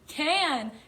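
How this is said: It is said in a loud shout.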